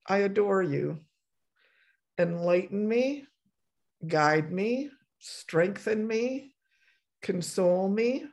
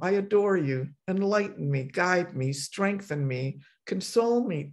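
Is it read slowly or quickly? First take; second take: slowly; quickly. First: It is read slowly. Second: It is read more quickly.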